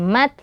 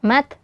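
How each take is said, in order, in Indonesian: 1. T di akhir hanya sedikit berdesah. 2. T di akhir hanya sedikit berdesah.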